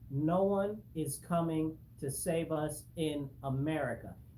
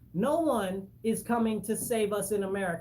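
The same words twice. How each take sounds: First: It is said slowly and deliberately. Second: It is said at a normal pace.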